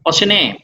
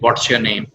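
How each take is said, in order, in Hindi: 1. t की आवाज़ नरम है और लगभग गायब हो जाती है। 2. t की आवाज़ साफ़ और स्पष्ट है। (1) "वो व्हाट ट साउंड को उतना एम्फेटिकली नहीं बोलते" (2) "ट साउंड प्रोमिनेंट आएगी"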